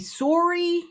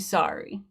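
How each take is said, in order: First: It is said in a Canadian accent. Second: It is said in an American accent. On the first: "Canadians say sorry" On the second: "Americans say sorry, like that"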